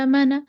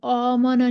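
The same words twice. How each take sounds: First: "आमना" with a thin, light first vowel; बारीक अलिफ. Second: "आमना" with a heavy, rounded first vowel; dark, back alif in "आमना"; गलत मोटा अलिफ. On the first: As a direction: keep the alif of "आमना" light and fronted. ("आमना" का अलिफ बारीक पढ़ें) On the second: ("आमना" का अलिफ मोटा करके) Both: Shown as a demonstration. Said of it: "इसको मोटा करके नहीं पढ़ेंगे".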